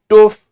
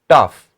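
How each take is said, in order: First: The vowel is a long oo sound. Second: The vowel is a short uh sound. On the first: The speaker calls it wrong. "Not toof" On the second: The speaker calls it right. "It is pronounced as tough"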